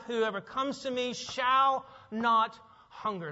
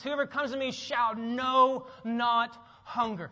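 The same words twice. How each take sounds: First: Said in the usual way. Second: Slow, proclaimed "shall know not hunger" with weight on know not; odd literal wording. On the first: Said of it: "what it actually says in the Greek text". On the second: Shown as a demonstration. Preacher showing the literal Greek, slow and emphatic. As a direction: declaim "know not" slowly and strongly. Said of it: "Literally, the Greek text".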